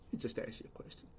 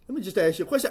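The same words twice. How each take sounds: First: Whispered, much softer lead-in; whispered aside. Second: Said in the usual way. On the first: Real, not acted. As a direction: slip it out under your breath in a whisper. Lead-in said under breath, then voiced.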